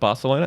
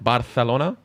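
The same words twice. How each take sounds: First: The c is said as an s sound. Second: The c is said as a th sound. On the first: "instead of Barcelona" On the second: "where they th the S noises, like Barcelona"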